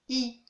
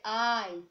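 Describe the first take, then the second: First: French I, lips stretched into "ee". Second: English I, mouth open, "eye". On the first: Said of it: "Étiré". (I français, lèvres étirées) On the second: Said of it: "Alors qu'en anglais". (I anglais, bouche ouverte, « aïe ») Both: Shown as a demonstration.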